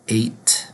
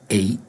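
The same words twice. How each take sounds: First: The final T sound is clearly pronounced. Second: The final T sound is dropped.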